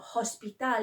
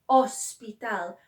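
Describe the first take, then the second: First: The word begins with an audible h sound. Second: The word begins directly with the vowel. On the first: The speaker calls it wrong. "Hospital is not hospital" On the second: The speaker calls it right. "They just start from the O"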